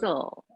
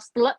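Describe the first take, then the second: First: The T sound is left silent. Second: The T sound is pronounced. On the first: The speaker calls it right. "tapi so gitu ya" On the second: The speaker calls it wrong. "tidak dibaca setel gitu ya, atau stle gitu ya"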